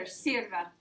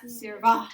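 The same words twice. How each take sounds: First: Sirva with the stress on the first syllable, SIR-va. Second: Sirva stressed on the last syllable, sir-VA; misplaced final stress. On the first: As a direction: lean on the I in Sirva, let the ending fall away. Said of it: "it's on the I because it sounds better". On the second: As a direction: push a loud, full A at the end of sirva. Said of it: "not sirva". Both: Shown as a demonstration.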